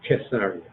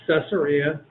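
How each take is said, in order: First: The name begins with a hard K sound. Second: The name begins with a soft S sound. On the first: "The proper pronunciation is Caesarea, Caesarea, with a hard K sound" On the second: "I'll say it both ways"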